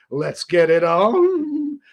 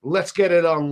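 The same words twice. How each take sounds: First: Sultry come-on. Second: Said in the usual way. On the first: Pretend. Streamer answering a flirty chatter [name], hammed-up slow seductive come-on. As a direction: stretch every word like a hammed-up crooner.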